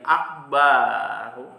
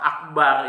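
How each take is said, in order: First: The vowel after the b is drawn out long. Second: The vowel after the b is short. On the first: The speaker calls it wrong. "kemudian dipanjangkan menjadi akbaru kayak gitu" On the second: The speaker calls it right. "yang seharusnya tidak panjang"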